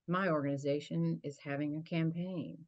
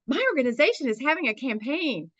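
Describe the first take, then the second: First: It is said in a flat, dull tone. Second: It is said in a lively, eager tone. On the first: Nobody would want to hear more about it. The speaker calls it wrong. "who wants to hear about it? Nobody" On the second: It inspires listeners to want to hear more. The speaker calls it right. "that's what we mean by inspire"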